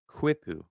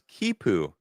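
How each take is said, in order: First: The word begins with a kw sound. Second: The word begins with a plain k sound. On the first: "I read Q U I as Qui" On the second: "Quipu is pronounced Kipu"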